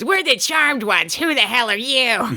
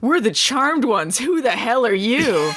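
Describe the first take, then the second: First: It is said in an imitated Charmed voice. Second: It is said in a normal voice.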